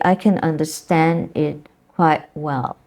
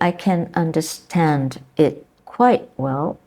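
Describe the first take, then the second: First: The final sounds of words are left out. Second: The final sounds of words are pronounced. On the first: "you say" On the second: "instead of saying"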